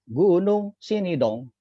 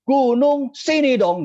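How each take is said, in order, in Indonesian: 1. Diucapkan dengan volume pelan, normal. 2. Diucapkan dengan sangat keras dan tegas.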